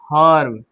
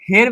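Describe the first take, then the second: First: The vowel sounds like the u in fur. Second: The vowel sounds like the e in bed. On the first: The speaker calls it right. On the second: The speaker calls it wrong. "हेर्ब नहीं"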